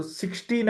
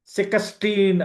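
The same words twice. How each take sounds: First: Said in the usual way. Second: "సిక్స్టీన్" broken up as se-ka-steen; Egyptian pronunciation. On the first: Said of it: "సిక్స్టీన్ అని చెప్పలేరు". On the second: Shown as a demonstration. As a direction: say "సిక్స్టీన్" with an extra vowel inside the ks. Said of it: "అని చెప్తారు".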